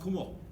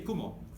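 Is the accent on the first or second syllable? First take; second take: second; first. First: The accent falls on the second syllable. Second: The accent falls on the first syllable. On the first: It means cloud. "If you want to say uh, cloud" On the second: It means spider. "for spider, you say kumo, accent on the first syllable"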